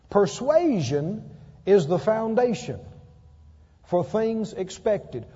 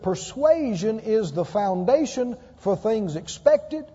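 First: It is spoken slowly. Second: It is spoken at a normal pace.

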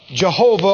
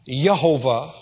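First: The name begins with a J sound. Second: The name begins with a Y sound.

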